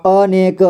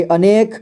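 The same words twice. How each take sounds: First: अनेक slowly split as अ, ने, क; syllable by syllable. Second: Said in the usual way. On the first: Shown as a demonstration. Teacher showing learners अनेक, slowly sounded out. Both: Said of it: "इसे पढ़ेंगे".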